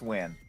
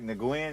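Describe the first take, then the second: First: The name is said like 'win'. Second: The name is not said like 'win'. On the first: The speaker calls it right. "Oh, it's Wynn" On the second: The speaker calls it wrong. "I was like Nguyen"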